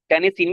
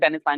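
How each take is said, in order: First: The last syllable is said like 'seen'. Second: The last syllable is said like 'sign'. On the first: The speaker calls it wrong. "टेनिसिन भी पढ़ सकते हैं" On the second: The speaker calls it right. "टेनिसाइन वैसे मेरा ख्याल है कि better pronunciation होगी"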